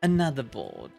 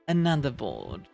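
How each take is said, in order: Both takes have the same delivery.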